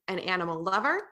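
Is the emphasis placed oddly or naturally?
oddly. The emphasis falls in an odd place.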